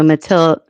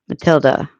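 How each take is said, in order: First: The final vowel is a full, accented 'e'. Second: The final vowel is a weak, unstressed 'uh'. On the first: "I was picturing an uh, accent on the E" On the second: "an unstressed vowel sound, like the A in sofa"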